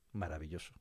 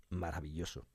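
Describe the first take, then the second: No difference in how they are said.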